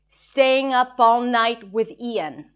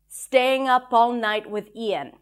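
No difference in how they are said.

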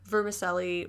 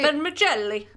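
First: The word is pronounced the English way. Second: The word is pronounced the Italian way. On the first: "that's how you're supposed to say it" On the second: "But in Italian, wouldn't it be vermicelli?"

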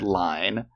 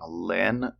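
First: The vowel is long, as in 'fine'. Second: The vowel is short, as in 'tin'. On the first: The speaker calls it right. "Her name is Ingrid Line" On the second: The speaker calls it wrong. "I've been saying Lynn the past half"

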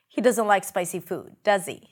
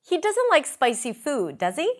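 First: The voice falls at the end on 'does he'. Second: The voice rises at the end on 'does he'. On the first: The speaker is making a statement, not really asking. "It's almost like I'm making a statement using this tag question" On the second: The speaker is really asking and wants confirmation. "That's a real question"

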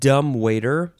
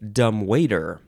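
First: The stress is on the first syllable. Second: The stress is on the second syllable. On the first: "the first syllable" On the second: "or the second syllable"

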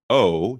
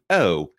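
First: The vowel is said with an American accent. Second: The vowel is said with a British accent.

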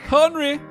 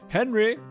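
First: It is said in a German accent. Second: It is said in a plain English accent. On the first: The speaker calls it right. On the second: The speaker calls it wrong.

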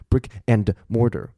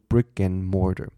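First: The word 'and' is said fully and clearly. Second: The word 'and' is weakened and blended in. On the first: The speaker calls it wrong. "我不会因为变慢就变成brick and mortar，因为听起来很奇怪" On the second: The speaker calls it right. "我们会说brick and mortar"

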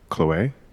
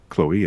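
First: The name is said with a French accent. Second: The name is said with an American accent.

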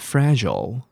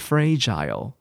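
First: An American accent, with a reduced final syllable. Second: A British accent, the last syllable rhyming with 'mile'. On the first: "那美式英文fragile" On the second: "这个时候是英式英文"

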